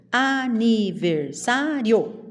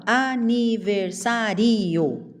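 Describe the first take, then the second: First: "Aniversário" slowly as a-ni-ver-SÁ-rio; joined diphthong. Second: "aniversário" as a-ni-ver-sa-RI-o; split final vowels. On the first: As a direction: stress SÁ, join rio. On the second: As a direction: make ri and o two syllables. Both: Shown as a demonstration. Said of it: "Eu não falo".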